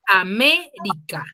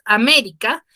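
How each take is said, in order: First: América said slowly, syllable by syllable: A-mé-ri-ca; teacher sounding out América's syllables slowly; split into syllables. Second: Said in the usual way. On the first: Shown as a demonstration. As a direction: break América into four separate beats. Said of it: "Tiene cuatro sílabas". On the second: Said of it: "por ejemplo, acá tenemos América".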